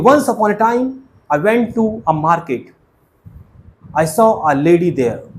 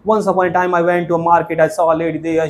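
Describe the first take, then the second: First: There is a clear pause between the sentences. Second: The sentences run together hurriedly without pausing. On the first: The speaker calls it right. "रुकना पड़ेगा और फिर हम आगे बोलेंगे" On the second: The speaker calls it wrong. "ऐसे नहीं"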